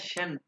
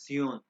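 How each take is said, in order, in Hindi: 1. इसकी आवाज़ अंग्रेज़ी के shun जैसी है। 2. इसकी आवाज़ tsion जैसी है। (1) "भाई जो है ना शन" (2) "इसको प्रोनाउंस करते हैं जर्मन में सियोन"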